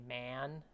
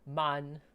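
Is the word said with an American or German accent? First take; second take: American; German. First: The vowel is a broad American flat a. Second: The vowel is an open German ah sound. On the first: "In American English, it's a little bit more like obvious the difference" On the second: "Could also pronounce it like uh, German"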